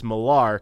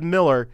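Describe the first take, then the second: First: The name is said the Scottish way. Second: The name is said the non-Scottish way. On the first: "I guess that's the Scottish pronunciation" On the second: "as soon as I said Millar"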